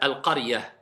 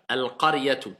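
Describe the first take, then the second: First: The word ends softly on an 'ah' sound. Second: The word ends with a full 'tu' syllable. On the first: The speaker stops on this word. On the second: The speaker keeps going without stopping.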